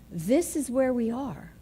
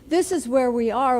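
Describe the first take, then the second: First: It is said in a calm, accepting tone. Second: It is said in a panicked, alarmed tone. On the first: The situation is accepted and one can move forward. "tone of voice is everything" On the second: The situation feels like a disaster. "That is a very different feeling than"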